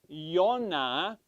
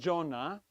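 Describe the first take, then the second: First: The name begins with a Y sound. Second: The name begins with a J sound. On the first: The speaker calls it right. "It is actually Yonah, which is correct" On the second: The speaker calls it wrong. "That's the modern English pronunciation"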